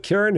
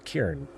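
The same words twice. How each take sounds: First: Said in the usual way. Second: Cairn squeezed into one syllable, low and soft. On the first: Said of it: "if you took Karen". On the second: Shown as a demonstration. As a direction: say Cairn as Karen in a single beat. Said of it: "made it all one syllable".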